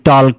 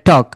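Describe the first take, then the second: First: The L sound is pronounced before the K. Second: The L sound is left out entirely. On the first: The speaker calls it wrong. "আমরা বলি টল্ক" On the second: The speaker calls it right. "এটা কি হবে? টক"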